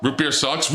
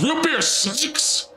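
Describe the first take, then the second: First: Said in the usual way. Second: Slow, high, drawn-out Root beer sucks! with ROOT hit hard; emphatic outrage. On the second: Acted. Mocking the Brit, drawls it slowly and high.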